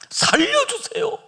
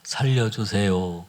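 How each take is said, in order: First: It is shouted loudly. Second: It is said very quietly, barely audible.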